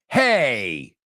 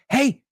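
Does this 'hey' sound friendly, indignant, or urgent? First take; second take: indignant; urgent. First: It is said indignantly, like an objection. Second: It is said urgently to grab attention. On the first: The speaker means wait a second. "expressing indignation" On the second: The speaker wants someone's attention. "there's an urgency in your voice"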